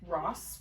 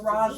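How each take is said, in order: First: The name ends with a hissing S sound. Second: The name ends with a buzzing Z sound. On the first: The speaker calls it wrong. "like Ross with S's. It's not that" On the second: The speaker calls it right. "with a Z. Like yeah, zebra"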